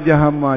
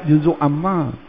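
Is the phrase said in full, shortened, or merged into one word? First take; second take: merged; full. First: Both words are run together into one word. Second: Both words are said in full, clearly separated. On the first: This is the name that came from slurring the phrase. "Itulah dia sebab panggil jahama tu" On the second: This is the original name of the section. "Asalnya belajar juzuk amma"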